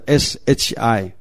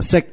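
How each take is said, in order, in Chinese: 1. 它没有结尾辅音，像 shi。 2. 它以 k 音结尾，像 sik。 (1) "拼音呢应该来讲是SHI" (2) "香港叫SIK"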